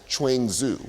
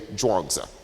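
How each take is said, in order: First: It begins with 'ch' and ends in 'zoo'. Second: It begins with a 'j' sound and ends in 'dzuh'. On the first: The speaker calls it wrong. "it's often been mispronounced as Chuangzu" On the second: The speaker calls it right. "the spelling we now use looks a lot more like it was actually pronounced"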